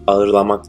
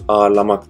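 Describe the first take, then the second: First: The soft g is sounded between the vowels. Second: The soft g is silent, lengthening the vowel. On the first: The speaker calls it wrong. "Ağırlamak değil" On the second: The speaker calls it right. "ağırlamak diye telaffuz edilir"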